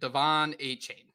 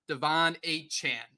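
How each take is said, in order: First: The last syllable sounds like 'chain'. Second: The last syllable sounds like 'chan'. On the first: The speaker calls it wrong. "twice we have gone with Devon A-Chain" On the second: The speaker calls it right. "it's actually Devon A-Chan"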